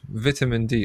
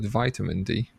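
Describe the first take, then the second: First: It is said with a non-American pronunciation. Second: It is said with an American pronunciation.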